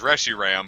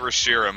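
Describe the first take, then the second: First: The stress is on the first syllable. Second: The stress is not on the first syllable. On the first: This is the official pronunciation. The speaker calls it wrong. "Officially the pronunciation is Reshiram, but I think that's stupid and ugly" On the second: This is the speaker's own preferred pronunciation. The speaker calls it right. "So I say Reshiram because it's way fucking uh, better and good"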